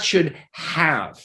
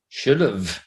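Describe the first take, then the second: First: The word have is fully pronounced and stressed. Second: The word have is reduced and unstressed. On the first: The speaker calls it wrong. "Not should have" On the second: The speaker calls it right. "That's slow"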